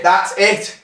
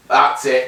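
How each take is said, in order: First: High, rising, pleased; excited. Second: Said in the usual way. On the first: Real, not acted. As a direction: cheer the good shot. Repeated after a good shot.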